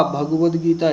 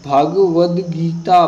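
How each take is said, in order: First: Said in the usual way. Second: Bhagavad Gita said slowly and louder, syllable by syllable; slow dictation. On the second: Shown as a demonstration. Teacher dictating Bhagavad Gita to students, slow and louder. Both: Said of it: "मैं शुद्ध बता रहा हूँ".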